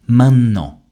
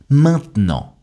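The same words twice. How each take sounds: First: "maintenant" as main-nnant, no T, loud and higher; double N. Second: "maintenant" as main-t'nant, T kept; silent E. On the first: Teacher gives learners a word to repeat, insistent double N in "maintenant". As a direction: punch a long N in "maintenant", dropping E and T. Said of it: "insister sur la prononciation du double N". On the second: Teacher gives learners a word to repeat, "maintenant" with silent E. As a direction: model "maintenant" in two syllables without the middle E. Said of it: "Le E de maintenant a complètement disparu". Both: Shown as a demonstration.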